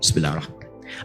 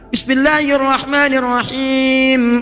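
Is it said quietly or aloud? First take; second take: quietly; aloud. First: It is said quietly, almost under the breath. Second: It is said aloud, clearly voiced.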